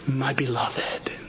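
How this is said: It is said in a warm, tender tone. The address expresses deep affection. The speaker calls it right. "with the tone of endearment in his heart"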